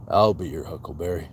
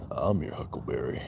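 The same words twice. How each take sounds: First: A hint of the cool cowboy, less hushed; lighter movie quote. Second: Doc Holliday impression. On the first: Streamer correcting his quote of the line, with a lightly lowered cowboy delivery. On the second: Streamer quoting a western film line, in a low quiet gunslinger voice. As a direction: drop way down and savour the line like a cool gunfighter.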